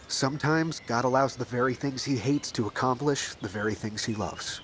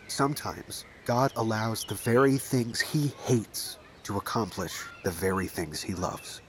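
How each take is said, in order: First: It is said at a normal pace. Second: It is said slowly.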